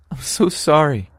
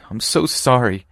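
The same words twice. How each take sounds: First: Higher, crying voice, breaking; more desperate sobbing apology. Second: High, tearful voice; sobbing apology. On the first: Winnie begging her friend's forgiveness, crying harder. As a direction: beg forgiveness, falling apart. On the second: Winnie apologizing to her friend, tearful. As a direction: plead through tears. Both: Acted. Winnie confesses, tears falling.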